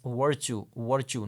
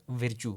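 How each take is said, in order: First: VIRTUE said with a central er vowel, "VUR-choo"; careful model of virtue, first vowel as in "her"; correct English pronunciation. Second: Virtue said wrongly as "VEER-choo", with an i vowel; wrong-way virtue, i instead of er; mispronunciation demo. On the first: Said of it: "you will pronounce that word as". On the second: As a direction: say virtue with a short i, "vir-choo". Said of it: "not virtue". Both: Shown as a demonstration.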